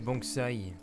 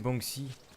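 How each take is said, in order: First: The final syllable sounds like 'sigh'. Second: The final syllable sounds like 'see'. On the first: Someone else claimed this was the pronunciation. "il me dit ça, ça se disait Banksai" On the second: This is the English pronunciation. "j'ai mis la prononciation anglaise en audio, et ça disait Banksy"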